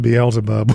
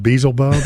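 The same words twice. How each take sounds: First: Said in the usual way. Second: "Beelzebub" squashed into BEE-zul-bub; mistaken pronunciation. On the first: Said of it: "I thought Beelzebub was pronounced". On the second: Shown as a demonstration. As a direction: say "Beelzebub" as Beezlebub, losing the middle L. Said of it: "for years, I thought Beelzebub was pronounced".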